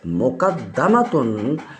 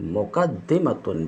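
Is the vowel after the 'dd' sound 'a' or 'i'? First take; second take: a; i. First: The vowel after the double d is a. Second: The vowel after the double d is i. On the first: It names the thing that is placed before. "दाल के फ़तह के साथ" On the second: It names the thing that puts itself before. "दाल के कसर के साथ"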